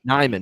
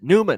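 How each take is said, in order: First: The first syllable sounds like 'nigh'. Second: The first syllable sounds like 'new'. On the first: The speaker calls it wrong. "Nyman is what I was hearing" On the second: The speaker calls it right. "That's actually how you pronounce it"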